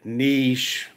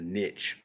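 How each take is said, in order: First: The word is said in a non-Southern way. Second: The word is said in a Southern way. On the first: This is how others say it. "I don't say niche" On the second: This is how the speaker says it. "I'm Southern boy. It's a niche"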